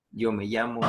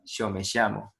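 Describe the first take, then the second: First: Said in the usual way. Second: "yo me llamo" said "sho me shamo" in an Argentine accent; Argentine sh sound. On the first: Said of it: "en vez de decir yo me llamo". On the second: Shown as a demonstration. Teacher showing the class how Argentines say "yo me llamo". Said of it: "en Argentina ... dicen yo me llamo".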